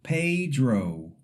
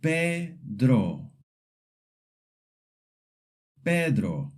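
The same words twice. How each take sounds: First: Pedro with an English ay and oh glide; wrong gliding vowels. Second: Pedro with pure E and O; Pedro, pure Spanish E and O, no glide; pure Spanish vowels. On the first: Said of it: "saying it like Pedro". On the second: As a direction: say Pedro with clean short vowels. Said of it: "Repeat after me". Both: Shown as a demonstration.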